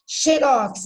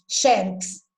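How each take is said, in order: First: Xerox slower, stressed on the final rox; brand pronunciation. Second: Xerox with stress on the first syllable, xé. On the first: Teacher contrasting brand Xerox with the rule. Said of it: "Xerox é marca". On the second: Teacher giving the correct accented xerox. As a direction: say xerox as a paroxytone, xé-rox. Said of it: "O correto é xerox". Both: Shown as a demonstration.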